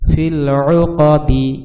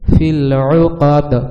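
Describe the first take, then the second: First: The last word ends with a short i vowel. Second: The last word ends with an echoing d release. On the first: The reading continues without stopping. "এটা হচ্ছে normal" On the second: The reader pauses at this word. "ওয়াকফ করলে কিরকম হবে? ... কলকলা হবে লাস্টে"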